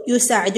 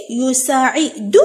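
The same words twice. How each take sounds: First: Said in the usual way. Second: يساعد slow, stretched into يو، سا، عي، دو; syllable by syllable. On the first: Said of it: "هنا عندنا فعل مضارع". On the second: Shown as a demonstration. Teacher breaking the verb up for pupils, syllable by syllable. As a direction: sound out يساعد slowly in separate syllables. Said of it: "راح نقطع كلمات الدرس".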